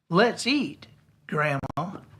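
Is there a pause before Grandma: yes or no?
yes. There is a pause before Grandma.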